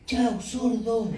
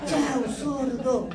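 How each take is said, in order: First: It is said loudly, like an exclamation. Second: It is said very loudly, like shouting.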